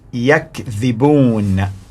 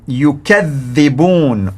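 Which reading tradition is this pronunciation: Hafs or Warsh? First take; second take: Hafs; Warsh. First: The word is pronounced in the Hafs reading. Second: The word is pronounced in the Warsh reading. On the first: They themselves lie. "the first one in the green, which is on your left side, Hafs" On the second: They accuse others of lying. "Now listen to the pronunciation in Warsh"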